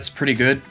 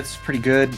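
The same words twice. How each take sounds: First: It is said in a put-on character voice. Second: It is said in the speaker's natural voice.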